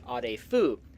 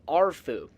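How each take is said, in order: First: The name is said with three full syllables. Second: The name is squeezed into two syllables. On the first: "the proper pronunciation would be Adefu" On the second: "some of the characters in Fallout three simply say Arfu"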